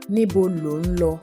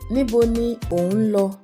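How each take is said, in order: First: The words are run together into a contraction. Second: The words are said separately, in full form.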